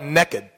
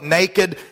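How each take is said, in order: First: It is said in a Texan accent. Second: It is said in a standard accent.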